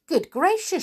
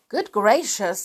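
First: High, startled exclamation; surprised gasp. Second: Frightened. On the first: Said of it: "she said". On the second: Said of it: "looking rather frightened". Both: Acted.

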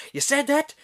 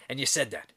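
First: High, loud, incredulous Irish brogue; thick Irish accent. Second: A hint of Irish, restrained question; Irish sergeant again asking. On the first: Retold or imitated. Sergeant questions the insult, high-pitched Irish accent. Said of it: "he's got this thick Irish accent". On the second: Sergeant returns to the insult later, subdued Irish accent. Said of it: "then, like, five minutes later".

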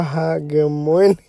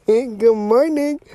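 First: Said in the usual way. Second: Bright, laughing good morning; laughing greeting. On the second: Real, not acted. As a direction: laugh it out warmly.

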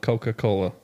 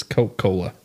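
First: Coca-Cola with all four syllables, co-ka-co-la; full pronunciation. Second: Coca-Cola said as Coke-Cola, dropping the "ka"; clipped-syllable pronunciation. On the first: Correcting a friend on the drink's name, full four-syllable Coca-Cola. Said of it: "It's Coca-Cola". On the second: Insisting on his cooler version, Coca-Cola said "Coke-Cola". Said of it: "That's just how it's said". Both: Shown as a demonstration.

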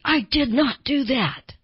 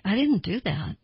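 First: "I did not do that" with did not split and stressed, higher and slow; over-insist, every word separate; emphatic, no contractions. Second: Said in the usual way. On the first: Shown as a demonstration. A lying person insisting on their innocence, emphatic. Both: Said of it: "they'll get very emphatic".

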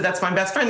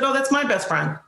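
First: Said in the usual way. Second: "my" pushed up higher and leaned on; that's MY best friend, stressed. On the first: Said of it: "I said". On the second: Retold or imitated. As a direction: claim the friend with "my". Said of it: "He said".

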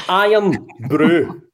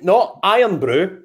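First: "Iron Brew" said slowly with the weight on "Brew"; Irn Bru, stress on Bru. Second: "Iron Brew" with the weight on "Iron", like English people say it; "Iron" stressed, the way he says is wrong. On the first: Teaching English listeners the drink's name, stress on Brew. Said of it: "right, this is pronounced". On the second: Mocking how English people say it, stress on Iron. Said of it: "Not Iron Brew". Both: Shown as a demonstration.

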